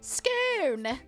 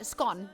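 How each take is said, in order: First: The word is said in a fancy-sounding way. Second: The word is said in a plain, ordinary way. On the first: "when people pronounce it fancy. They're like" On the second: "Where I just say scone. It sounds a bit more boring"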